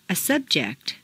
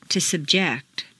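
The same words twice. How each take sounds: First: SUBject, stressed on the first syllable. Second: SubJECT, stressed on the second syllable. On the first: Teacher models noun "subject", first-syllable stress. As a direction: hit SUB in "subject". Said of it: "first syllable for nouns". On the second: Teacher models verb "subject", second-syllable stress. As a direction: hit JECT in "subject". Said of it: "to the second syllable". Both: Shown as a demonstration.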